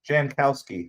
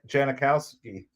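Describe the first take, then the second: First: The name has no extra middle syllable. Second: The name has an extra middle syllable. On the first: The speaker calls it right. "Jankowski, not Janikowski" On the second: The speaker calls it wrong. "not Janikowski"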